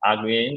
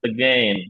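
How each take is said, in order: First: The first vowel is a full open vowel. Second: The first vowel is a weak, barely touched schwa. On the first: The speaker calls it wrong. "again বা again এরকম না" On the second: The speaker calls it right. "শ্বাসান"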